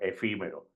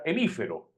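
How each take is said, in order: First: The word is said in its standard form, efímero. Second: The word is said with extra syllables, hemífero. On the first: The speaker calls it right. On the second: The speaker calls it wrong.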